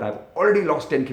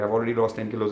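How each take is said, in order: First: It is said warmly, with happy, grateful feeling. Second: It is read flatly, by rote, without feeling. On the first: The words are truly meant and felt. The speaker calls it right. "say it with feeling" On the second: The words are recited without meaning them. The speaker calls it wrong. "that's just ratta"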